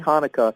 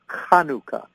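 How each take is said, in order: First: The word starts with a plain h sound. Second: The word starts with a guttural throat sound. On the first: This is how English speakers usually say it. "We say Hanukkah" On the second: This is the Hebrew pronunciation. "in the Hebrew, it's Chanukah. ... that's the guttural"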